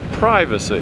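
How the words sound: It is said in an American way. "over here we say privacy"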